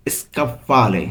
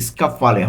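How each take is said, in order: First: স্কাফালে said with an extra vowel before it, like ইস্কাফালে; a mistaken take with an i-sound before the sk of স্কাফালে; স্কাফালে with a stray i at the start, as the teacher later flags; slightly wrong pronunciation. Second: স্কাফালে said cleanly, starting straight on sk with no vowel before it; the teacher's fixed take of স্কাফালে, beginning with a crisp sk; স্কাফালে said carefully the right way, sk-a-fa-le; corrected pronunciation. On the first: Real, not acted. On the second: Shown as a demonstration. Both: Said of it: "স্কাফালের যে উচ্চারণটি রয়েছে সেটি একটু ভুল রয়েছে".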